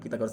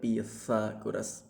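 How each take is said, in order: First: The middle consonant is a plain t sound. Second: The middle consonant is a th sound. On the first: The speaker calls it wrong. "bukan Pythagoras" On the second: The speaker calls it right. "tapi Pythagoras pakai theta"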